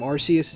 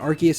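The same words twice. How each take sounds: First: The first syllable sounds like 'arse'. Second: The first syllable does not sound like 'arse'. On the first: It sounds like a rude British word. "instead of Arceus ... Arce is, is ass or butt" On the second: It avoids sounding like a rude word. "why I'm pronouncing it Arceus"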